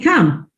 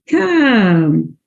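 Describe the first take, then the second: First: The vowel is short in a New Jersey accent. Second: The vowel is drawn out in a Southern drawl. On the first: "that's not how they talk in New Jersey. They say come" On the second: "how many vowels do you hear? Listen carefully"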